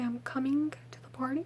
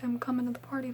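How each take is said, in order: First: The word coming ends in a full -ing sound. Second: The word coming ends in a short -in sound. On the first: This is not how the speaker usually talks. "I usually wouldn't say" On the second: This is how the speaker usually talks. "I would say"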